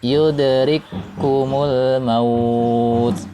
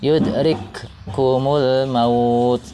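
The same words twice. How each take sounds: First: The two k sounds merge into one held k. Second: The first k is released separately with audible breath. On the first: The speaker calls it right. "Jadi cara membacanya adalah" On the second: The speaker calls it wrong. "Contohnya yang salah"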